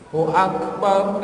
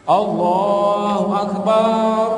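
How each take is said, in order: First: The vowels in Akbar are kept short. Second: A vowel in Akbar is drawn out long. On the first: The speaker calls it right. "Itu lah" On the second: The speaker calls it wrong. "Ini ada banu yang salah. ... salah tuh. Baknya jangan panjang"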